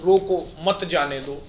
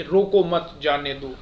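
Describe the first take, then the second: First: Slow, with the break after रोको; comma pause demo. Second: Group रोको मत together, then जाने दो; comma pause demo. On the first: Teacher contrasts comma places, pausing after रोको before मत जाने दो. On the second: Teacher contrasts comma places, pausing after मत in रोको मत जाने दो. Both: Shown as a demonstration. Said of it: "थोड़ी थोड़ी सी देर हम रुकने की बात".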